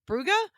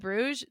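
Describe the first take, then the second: First: It is said the local Flemish way. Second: It is said the English way. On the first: This is how the locals say it. The speaker calls it right. "they call it" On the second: This is how the visitors say it. The speaker calls it wrong. "how we would say Bruges"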